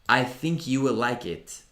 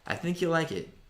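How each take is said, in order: First: "You will" is said as two full words. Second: "You will" is contracted to "you'll". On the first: The speaker calls it wrong. "Non vogliamo dire" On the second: The speaker calls it right. "Iniziate a pronunciarlo così"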